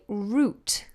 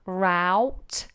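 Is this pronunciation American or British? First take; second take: British; American. First: The word sounds exactly like root. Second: The vowel sounds like ow in cow. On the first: "But we say route. Exactly the same as the other spelling, which is root" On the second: "a lot of Americans will say route, like ow"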